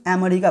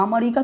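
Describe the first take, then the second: First: अमेरिका opening on "ae"; correct first vowel. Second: अमेरिका opening on "uh"; wrong first vowel. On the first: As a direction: say अमेरिका as "ae-merika". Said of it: "लेकिन अमेरिका पढ़ सकते हैं". (अमेरिका की शुरुआत "ऐ" से) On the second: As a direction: say अमेरिका as "a-merika", no "ae". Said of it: "तो नहीं पढ़ सकते". (अमेरिका की शुरुआत "अ" से) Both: Shown as a demonstration.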